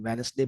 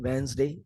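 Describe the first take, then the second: First: An s sound follows the n. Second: A z sound follows the n. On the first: The speaker calls it wrong. "वेनसडे भी wrong है" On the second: The speaker calls it right. "वो न के साथ जेड sound mix हो जाएगी, ... correct है"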